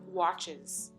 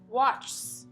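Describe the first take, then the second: First: The ending is said as an extra syllable. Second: The ending adds no extra syllable. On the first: The speaker calls it right. "instead of watches" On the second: The speaker calls it wrong. "they don't add the extra syllable at the end of es endings"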